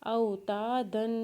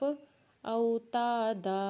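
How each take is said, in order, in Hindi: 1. यह शब्द नासिक्य "n" ध्वनि पर खत्म होता है। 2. यह शब्द लंबे "a" स्वर पर खत्म होता है। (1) "दो ज़बर पढ़ेंगे तो ऊपर गुन्ना करेंगे" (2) "वक्फ के बाद ... एक अलिफ के बराबर खींच के पढ़ेंगे"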